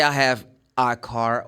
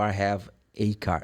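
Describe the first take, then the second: First: "a" as an open ah before "car"; article as ah. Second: Softer, "a" as ay before "car"; article as ay. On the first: Teacher offers the first correct option, a as ah. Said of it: "You can say". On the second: Teacher offers the other correct option, a as ay. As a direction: say "a" like the letter A in "a car". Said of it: "It doesn't matter". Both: Shown as a demonstration.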